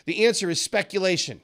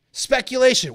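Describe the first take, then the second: First: Said in the usual way. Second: "Speculation." said higher and louder, landing hard; emphatic repeat. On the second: Shown as a demonstration. Teacher driving home the key answer, "Speculation." punched. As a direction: hammer the word "Speculation." home.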